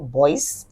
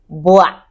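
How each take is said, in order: First: The final s is sounded. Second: The final s is silent. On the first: The speaker calls it wrong. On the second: The speaker calls it right.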